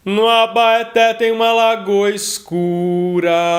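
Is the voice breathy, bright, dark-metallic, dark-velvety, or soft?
dark-metallic. The voice is metallic but darker. "um timbre mais metalizado e mais escuro"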